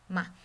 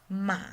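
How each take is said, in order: First: It is said quickly and lightly, unstressed. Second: It is said with the third tone. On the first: "unstressed tone ... like a whisper, really quickly and gently" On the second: "the third one"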